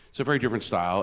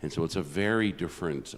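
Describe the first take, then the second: First: "very" pushed higher and louder; emphatic "very" in "it's a very different style"; stress on very. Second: Said in the usual way. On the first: Shown as a demonstration. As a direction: lean hard into "very".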